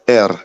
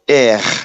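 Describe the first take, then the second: First: The R is pronounced the African way. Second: The R is pronounced the French way. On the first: This is how Africans say it. The speaker calls it right. "les Africains disent R" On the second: This is how the listener says it. The speaker calls it wrong. "Tu dis souvent R"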